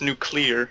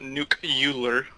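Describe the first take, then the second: First: No extra 'yoo' sound comes before the ending. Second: An extra 'yoo' sound comes before the ending. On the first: The speaker calls it right. "It's nuclear" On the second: The speaker calls it wrong. "add a second U in in nuclear. It's not nuclear"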